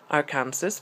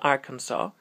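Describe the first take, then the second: First: The name is pronounced the way it is spelled. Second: The name is pronounced the common American way. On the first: "è scritto Arkansas" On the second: "in America molto spesso lo pronunciano Arkansas"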